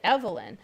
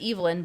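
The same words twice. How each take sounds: First: It uses the local pronunciation. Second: It uses the British-Scottish pronunciation. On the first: This is how people around here said it. The speaker calls it wrong. "everybody around here called it Evelyn" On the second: This is the speaker's actual name. The speaker calls it right. "my name was Evelyn"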